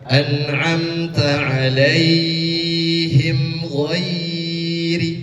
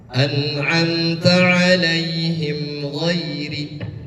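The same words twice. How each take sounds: First: The 'ai' vowel sound is drawn out long. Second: The 'ai' vowel sound is kept short. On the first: The speaker calls it wrong. "bukan an'amta alaihim ghairi, bukan seperti itu" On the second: The speaker calls it right. "tidak pan panjang"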